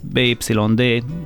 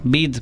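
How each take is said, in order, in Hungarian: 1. A nevet betűnként betűzik. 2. A nevet egy rövid szóként mondják ki. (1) "ez az, amivel szoktunk menni" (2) "jellemzően bid"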